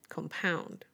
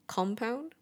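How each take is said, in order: First: The stress is on the second syllable. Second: The stress is on the first syllable. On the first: It is a verb: to make something worse. "With the verb, the second syllable is stressed instead" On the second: It is a noun or adjective. "with the noun and adjective, the first syllable is stressed"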